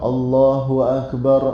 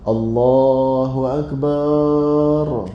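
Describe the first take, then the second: First: No vowel is drawn out beyond normal length. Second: The final bar syllable is drawn out long. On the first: The speaker calls it right. "kena sebut Allahu Akbar" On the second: The speaker calls it wrong. "memanjangkan bar"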